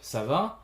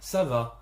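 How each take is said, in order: First: The pitch goes down and then rises. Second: The pitch goes up and then falls. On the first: It asks how someone is. "You see that I go down and then up" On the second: It answers politely that all is fine. "up and down"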